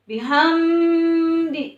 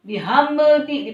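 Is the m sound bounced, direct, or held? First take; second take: held; bounced. First: The m sound is held before the d. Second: The m sound is bounced before the d. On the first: "tidak boleh ditahan"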